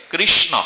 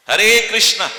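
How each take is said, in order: First: কৃষ্ণ ending in a short o sound; correct pronunciation. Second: Hare কৃষ্ণা with a long final a, foreign style; mock the foreign কৃষ্ণা ending in a; wrong pronunciation. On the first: Preacher teaching devotees the right কৃষ্ণ, ending in o. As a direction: end কৃষ্ণ on a clear short o. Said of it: "অ উচ্চারণ হবে". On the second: Preacher mimicking foreigners, saying কৃষ্ণা with a final a. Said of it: "ওরা ওদের জিহ্বা নষ্ট হয়ে বলে". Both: Shown as a demonstration.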